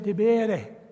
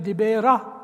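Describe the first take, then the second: First: The word ends with an 'e' vowel. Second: The word ends with an 'a' vowel. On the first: The speaker calls it right. "you say Dibere, if you're speaking Nubian" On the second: The speaker calls it wrong. "You don't say Dibera"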